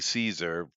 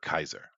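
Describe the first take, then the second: First: The word begins with a soft S sound. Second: The word begins with a hard K sound. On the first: This is the usual modern pronunciation. "we say Caesar" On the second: This is how it was said in ancient times. "at the time it would have been pronounced uh, uh, Kaiser"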